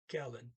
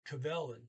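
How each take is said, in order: First: The v sound is dropped from the word. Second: The v sound is pronounced in the word. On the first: "but he didn't. He said Kellen" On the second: "I'm going to use the usual pronunciation. You pronounce the V normally"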